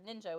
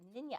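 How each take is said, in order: First: The middle sound is a J sound. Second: The middle sound is a Y sound.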